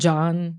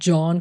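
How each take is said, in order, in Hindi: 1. स्वर को फ़्लैट करके, अमेरिकी ढंग से बोला गया है। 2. स्वर अपने मूल, बिना फ़्लैट किए ढंग से बोला गया है।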